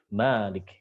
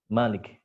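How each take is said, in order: First: The first vowel is long. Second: The first vowel is short. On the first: "membaca dengan isbatul alif" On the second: "Jadi dibaca pendek"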